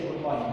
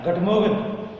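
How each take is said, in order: First: Said in the usual way. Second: "Good morning" in a supposed French accent, "gut mogen". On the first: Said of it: "we say good morning". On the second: Shown as a demonstration. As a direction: say "Good morning" the claimed French way, as "guh-MOH-gen". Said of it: "The French people say".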